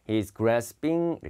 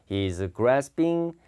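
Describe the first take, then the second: Both takes have the same delivery.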